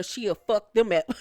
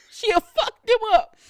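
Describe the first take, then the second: First: Said in the usual way. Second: High-pitched, loud imitation of a threat; mock threat. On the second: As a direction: mimic her threat way up high. Repeats the threat as an impression.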